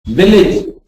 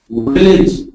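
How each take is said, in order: First: "Village" with a bitten lip v. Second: "village" wrongly said as wheelage with a w. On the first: Teacher saying "Village" before the wrong version. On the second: Teacher showing students the wrong "village". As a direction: round the lips on "village" instead of biting. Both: Shown as a demonstration.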